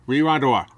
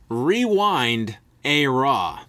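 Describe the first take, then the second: First: The phrase is said quickly and repeatedly. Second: The phrase is said slowly and carefully. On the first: The speaker calls it wrong. "If you tried to say it fast" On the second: The speaker calls it right. "If you say it slow like that"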